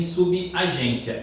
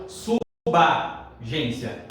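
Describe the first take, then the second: First: "subagência" as su-bi-a-gência; wrong pronunciation. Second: "subagência" slowly as su-ba-gência; correct pronunciation. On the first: Teacher warns against the mistake, "subagência" as subi-agência. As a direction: slip an i after b in "subagência". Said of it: "nem subagência". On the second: Teacher corrects the mistake, "subagência" as slow su-ba-gência. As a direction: link b straight to a in "subagência". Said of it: "É suboficial". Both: Shown as a demonstration.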